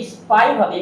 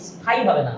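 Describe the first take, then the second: First: Said in the usual way. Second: স্পাই said as স্ফাই, lower and softer, with a puff on the p; the wrong breathy স্পাই; wrong aspirated p. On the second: Shown as a demonstration. (ভুল উচ্চারণ: স্ফাই)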